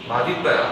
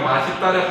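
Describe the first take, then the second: First: The final s becomes a d before linking. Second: The final s links into the next syllable. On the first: This is the standard pronunciation by rule. "원칙 발음은" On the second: This is the common pronunciation that is permitted. "하도 사람들이 이거 연음시켜서 발음하는 맛있다를"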